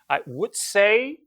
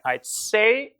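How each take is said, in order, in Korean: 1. would는 완전하게 발음됩니다. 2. Would는 d 소리로 줄어듭니다. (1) "I apostrophe D I would를 줄인 거예요" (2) "중요한 정보는 say에 있기 때문에 I'd say about five 이렇게 되는 거죠"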